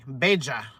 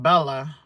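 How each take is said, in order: First: The double L sounds like an English J. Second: The double L sounds like an English L. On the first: "that Y is a J" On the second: "I was saying Bella"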